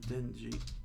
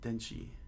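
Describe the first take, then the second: First: The second syllable starts with a j sound. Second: The second syllable starts with a ch sound. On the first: The speaker calls it wrong. "I keep pronouncing it G" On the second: The speaker calls it right. "Not G. It's Denchi"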